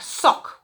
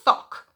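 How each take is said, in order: First: The word begins with a hissing s sound. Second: The word begins with a lisped th sound. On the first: The speaker calls it right. "instead of a s sound" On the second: The speaker calls it wrong. "it comes out as a th"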